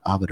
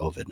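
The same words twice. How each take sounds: First: Ovid with a short O, AH-vid; first pronunciation option. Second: Ovid with a long O, OH-vid; alternative pronunciation. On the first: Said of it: "I wonder if they pronounce it". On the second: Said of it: "pronounce it Ovid or Ovid". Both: Shown as a demonstration.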